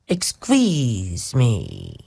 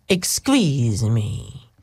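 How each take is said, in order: First: It is said in a Greek Dracula-like voice. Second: It is said in a Greek Dracula-like voice.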